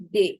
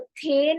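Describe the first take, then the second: First: It begins with a soft d sound. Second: It begins with an aspirated t sound. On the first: The speaker calls it right. "इसको बोलते हैं दे" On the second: The speaker calls it wrong. "इसको थे नहीं बोलते हैं"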